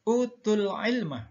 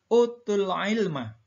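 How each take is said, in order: No difference in how they are said.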